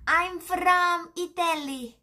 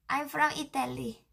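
First: Put-on voice. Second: Said in the usual way. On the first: Answers in an acted voice.

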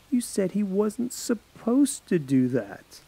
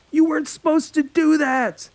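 First: Slow, level and pointed; girl calmly catching her friend's lie; cold, slow insistence. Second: High, loud accusing yell; teen boy yelling in panic. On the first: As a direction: lay out his words back to him, slowly. Paige coldly pressing Alex. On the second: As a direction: shout it at him in alarm. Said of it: "Alex yelled at the mortician". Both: Acted.

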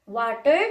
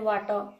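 First: American "water" with the final R sounded; American accent. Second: British "water" with a silent final R; British accent. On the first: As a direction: say the first "water" American-style, ending in "ter" with an R. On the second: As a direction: say "water" British-style, ending in an open "taw". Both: Shown as a demonstration. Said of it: "like, R is silent".

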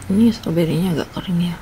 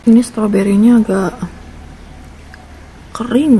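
First: Said in the usual way. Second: Talking through a mouthful of donut; words muffled by food; mouth full. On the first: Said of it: "Eh, maaf, maaf". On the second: Real, not acted. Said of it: "Ngomong sambil makan".

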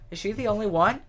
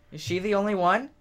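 No difference in how they are said.

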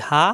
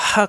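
First: হা light and open, without throat pressure; open-mouthed ha. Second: হা squeezed hard in the throat; pressed throat ha. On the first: Teacher contrasting the round ha for students, open unpressed হা. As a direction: let হা out freely with an open mouth. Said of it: "মুখ খোলা থাকবে". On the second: Teacher showing students the long ha, throat-pressed হা. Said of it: "কণ্ঠনালীতে চাপ দিয়ে উচ্চারণ". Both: Shown as a demonstration.

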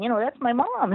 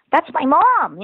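First: Put-on quieter, still high child's insistence; softer kid repeat. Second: Put-on proud kid. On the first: Daughter repeating her claim to doubtful strangers, quieter. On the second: Daughter telling strangers about her mom, high and proud. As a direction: shout it up like a proud child.

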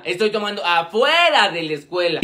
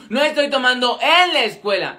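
First: Low line that leaps on "afuera"; énfasis en «afuera». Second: "en" singled out with heavy stress; énfasis en «en». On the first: Aclara: afuera, no adentro. («afuera» alargado y muy marcado) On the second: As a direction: lean on the word "en" to split hairs. Aclara: en contra afuera. («en» muy marcado, aclarando) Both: Acted.

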